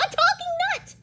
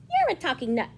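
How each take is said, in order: First: Very high, loud amazed rabbit; shrieking. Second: Said in the usual way. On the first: Acted. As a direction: shriek in astonishment. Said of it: "shrieked Littlest Rabbit". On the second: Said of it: "said Pecan".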